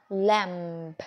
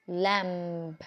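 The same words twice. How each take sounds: No difference in how they are said.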